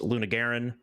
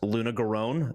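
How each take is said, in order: First: The name ends with a short 'ren' sound. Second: The name ends with a long 'rone' sound. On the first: The speaker calls it right. "It's Luna Garen" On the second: The speaker calls it wrong. "they're wrong"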